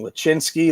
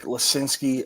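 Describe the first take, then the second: First: The middle consonant is a ch sound. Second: The middle consonant is a plain s sound. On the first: The speaker calls it wrong. "kept saying Lachinsky. There's no H in there" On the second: The speaker calls it right. "I pronounced it correct"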